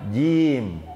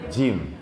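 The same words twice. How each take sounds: First: No puff of air escapes with the sound. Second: A puff of air escapes with the sound. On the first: The speaker calls it right. "jim yang benar tanpa angin" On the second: The speaker calls it wrong. "aya angin kene"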